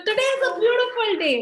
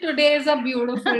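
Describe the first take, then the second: First: It is said in a lively, enthusiastic tone. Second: It is said in a flat, defeated tone.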